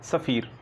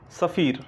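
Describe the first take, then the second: First: सफ़ीर softer with a clear fricative f; nukta fa. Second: सफ़ीर with a fricative f, not ph; nukta fa. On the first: Teacher repeating the word softly for students. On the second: Teacher reading out his pen name to students with a nukta f. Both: Shown as a demonstration. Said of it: "फ़ा के नीचे मैंने नुक्ता".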